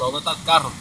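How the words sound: The Spanish is spoken with a native accent. The speaker calls it right. "speaking normal Spanish"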